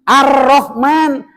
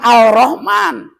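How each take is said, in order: First: The L merges into a doubled R sound. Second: The L sound is clearly pronounced. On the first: The speaker calls it right. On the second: The speaker calls it wrong. "bukan Al-Rahman"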